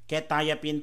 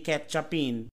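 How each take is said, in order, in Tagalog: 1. Binibigkas ang pangalan bilang 'kwe-tie-a-peen'. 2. Binibigkas ang pangalan na parang 'ketchupin'. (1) "Quetiapine po ang basa niyan" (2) "Hindi ketchupin"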